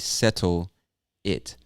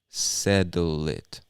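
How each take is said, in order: First: The two words are said slowly and separately. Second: The two words are said fast and blended together. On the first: "he doesn't say settle it" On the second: "He's speaking much faster and he blends those two words together"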